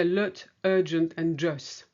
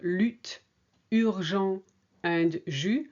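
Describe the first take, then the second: First: Lut, urgent, jus with a flat English vowel; English-style U. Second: Lutte, urgent, jus with a rounded French U; French U sound. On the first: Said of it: "you say". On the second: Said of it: "Instead of". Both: Shown as a demonstration.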